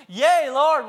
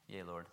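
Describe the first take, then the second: First: Yea, Lord shouted high and loud; eager exclaim. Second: Yea, Lord muttered low and soft, no life; flat mumble. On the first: Blind men answering Jesus, high and loud. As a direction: burst out Yea, Lord with joy. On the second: The wrong way the blind men answered, low and soft. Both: Shown as a demonstration. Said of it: "I don't think they said it like that either".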